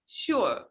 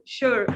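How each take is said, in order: First: "sure" British-style, r dropped; British "sure", ending on an open vowel; British accent. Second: "sure" with an American r; American "sure", the final r pronounced; American accent. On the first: Teacher modelling British accent, "sure" without the r. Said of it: "in British accent, you can say". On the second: Teacher modelling American accent, "sure" with r sounded. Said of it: "This is an American accent". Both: Shown as a demonstration.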